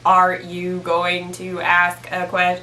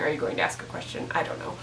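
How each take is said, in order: First: Slow, even robotic monotone; slow mock robot, every word on one note; monotone computer voice. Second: Fast, soft whisper. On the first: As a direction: imitate a computer reading word by word. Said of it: "it's just the most monotone". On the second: Shown as a demonstration. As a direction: breathe it quickly under your breath. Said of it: "I don't know why I was saying".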